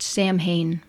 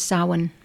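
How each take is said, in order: First: The word is said with clear m and h sounds. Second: The word sounds like sow-in, with no m sound. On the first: This is how the written letters suggest it sounds. The speaker calls it wrong. "as though it ought to be pronounced Samhain" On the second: This is the original Celtic pronunciation. The speaker calls it right. "its Celtic pronunciation is Samhain"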